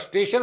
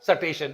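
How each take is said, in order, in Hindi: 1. s और t एक समूह के रूप में एक साथ बोले जाते हैं। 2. s और t के बीच एक स्वर डाला जाता है। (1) "स्टेशन होगा" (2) "जोड़ाक्षर को तोड़ाक्षर"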